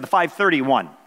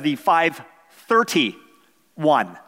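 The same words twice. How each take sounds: First: It is said in a plain, neutral tone. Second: It is said in a sarcastic, impatient tone. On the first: A simple answer to the question. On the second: The speaker is annoyed at being asked again.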